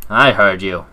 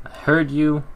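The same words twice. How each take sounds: First: "I" pushed louder, the rest level; "I heard you" with the weight on "I"; stress on I. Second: "heard" lifted high, the rest plain; "I heard you" with the weight on "heard"; stress on heard. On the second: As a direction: hit "heard". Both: Acted.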